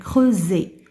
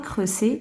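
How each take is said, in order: First: The middle consonant is a buzzing Z sound. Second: The middle consonant is a hissing S sound. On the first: The speaker calls it right. "le S entre deux voyelles, je le prononce Z" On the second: The speaker calls it wrong. "On ne dit pas"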